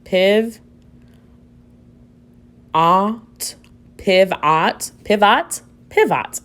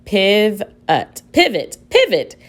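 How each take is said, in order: First: PIVOT sounded out "piv-OT", full short O like "ott"; higher-pitched questioning blend of "piv" and "ot". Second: PIVOT as "PIV-ut", weak second vowel; schwa sound. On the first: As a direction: misread pivot with both vowels fully pronounced. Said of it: "try with the short sound". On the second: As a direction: sound out "piv... ut", then blend it higher into PIVOT. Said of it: "try it with the schwa sound". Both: Shown as a demonstration.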